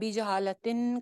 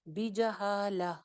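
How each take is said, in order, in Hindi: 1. शब्द का अंत 'tin' की आवाज़ से होता है। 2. शब्द का अंत लंबी 'ah' की आवाज़ से होता है। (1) "अब बीजहालतिन करके वक्फ नहीं हो सकता।" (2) "वक्फ करेंगे तो फिर क्या हो जाएगा? बीजहाला।"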